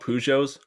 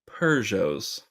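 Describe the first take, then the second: First: It is said the American way. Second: It is said the British way.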